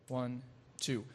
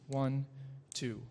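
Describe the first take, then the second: The two takes are said the same way.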